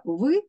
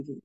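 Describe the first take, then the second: First: «в» as a hard v sound, set apart; твердий звук В. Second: «ві» with a half-softened v; напівпом'якшений звук. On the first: (твердий «в», вимовлений окремо) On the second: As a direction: sound out «ві», softening the v slightly. (напівпом'якшений «ві», окремо) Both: Shown as a demonstration. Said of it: "напівпом'якшений".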